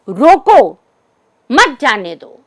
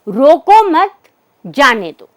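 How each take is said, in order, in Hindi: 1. विराम 'roko' शब्द के बाद आता है। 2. विराम 'mat' शब्द के बाद आता है। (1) "इसका अर्थ होगा कि इस व्यक्ति को हमें जाने नहीं देना है" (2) "इसका अर्थ हुआ कि उस व्यक्ति विशेष को रोकने की आवश्यकता नहीं है"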